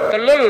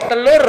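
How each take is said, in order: First: The final consonant is pronounced as an L. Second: The final consonant is a clear R sound. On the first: The speaker calls it wrong. "tidak bisa mengucapkan huruf R" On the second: The speaker calls it right. "Coba telur"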